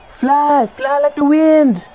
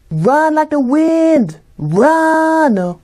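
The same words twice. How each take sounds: First: High, slow, drawn-out cheer; will them to fly; dramatic cheering. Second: High, slow, drawn-out cheer; dramatic cheering. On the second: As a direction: urge them on grandly. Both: Acted. Cheering at the game.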